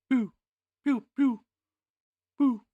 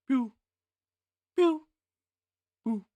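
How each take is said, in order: Both takes have the same delivery.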